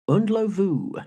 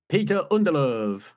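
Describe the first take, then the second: First: The surname ends with the sound 'lovu'. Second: The surname ends with the sound 'love'. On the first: The speaker calls it right. "the correct pronunciation is Undlovu" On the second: The speaker calls it wrong. "We've been getting that wrong for years"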